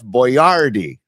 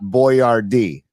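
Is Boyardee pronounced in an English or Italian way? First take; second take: Italian; English. First: The name is given an Italian-sounding pronunciation. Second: The name is given an English-sounding pronunciation. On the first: The speaker calls it right. "can we just at least pronounce it correctly? ... like Neil Denardi" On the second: The speaker calls it wrong. "not Boyardee"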